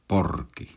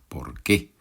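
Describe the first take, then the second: First: The stress falls on the first syllable. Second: The stress falls on the second syllable. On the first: It gives a reason. "una sola palabra con énfasis en la primera sílaba" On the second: It asks for a reason. "dos palabras con énfasis en la segunda palabra"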